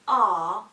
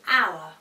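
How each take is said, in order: First: The vowel is one flat 'ah' sound. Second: The vowel glides through three vowel sounds. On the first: The speaker calls it wrong. "they often say R" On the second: The speaker calls it right. "when it should be our"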